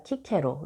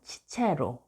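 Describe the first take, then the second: First: The name begins with a hard K sound. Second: The name begins with a CH sound.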